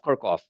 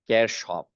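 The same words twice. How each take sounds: First: It is said the American way, like Kirk. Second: It is said with the German pronunciation. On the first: "why are they referencing Star Trek in this meeting?" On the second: "the modern German pronunciation is Kirchhoff"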